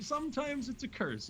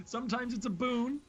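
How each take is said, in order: First: High, slow start, dropping down on "curse"; falling payoff on CURSE. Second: "boon" lifted high, left hanging on a rise; rising setup on BOON. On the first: Caster explains the downside of mobility, high slow line falling on "curse". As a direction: land the contrast with a drawn-out fall onto "curse". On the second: Caster weighs a champion's mobility for viewers, high rising stress on "boon". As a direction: set up the contrast with "boon" pitched up at the end. Sets up boon against curse. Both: Real, not acted.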